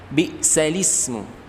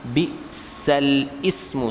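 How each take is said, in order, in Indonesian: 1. Kata-katanya tersambung tanpa jeda. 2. Kata-katanya dipisah sebelum ismu. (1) "dibacanya yang benar adalah" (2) "secara teksnya"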